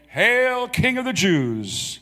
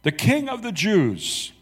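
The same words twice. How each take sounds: First: High, slow sneering salute to a fake king; mocking hail. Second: "The King of the Jews" read high and slow, weight on "King"; solemn sign reading. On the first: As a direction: hail him like a jeering soldier. Soldiers mocking Jesus with salute. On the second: Acted. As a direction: announce "King" like a proclamation. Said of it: "and it read".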